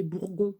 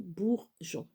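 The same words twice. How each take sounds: First: "bourgon" with a hard G, as in gare. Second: "bourgeon" slowly, in two parts: bour-geon; soft G. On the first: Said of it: "Si on met pas le E". (« bourgon » avec un G dur) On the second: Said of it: "Donc, bourgeon". (« bourgeon » lentement, bour-jon, G doux) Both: Shown as a demonstration.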